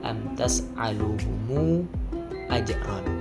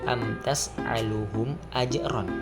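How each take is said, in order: First: The word 'tas'aluhum' gains an added u vowel. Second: The word 'tas'aluhum' ends on a closed m. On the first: "dengan silah bersambung" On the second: "tanpa silah, tidak bersambung"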